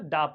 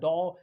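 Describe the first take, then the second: First: The vowel is a short neutral 'ah' sound. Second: The vowel is an open 'aw' sound. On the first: The speaker calls it right. "डा पढ़ा जाएगा" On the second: The speaker calls it wrong. "ना कि डो या डॉ ऐसे नहीं पढ़ा जाएगा"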